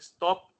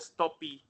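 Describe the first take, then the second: First: The word ends cleanly on the final consonant. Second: An extra vowel is added after the final consonant.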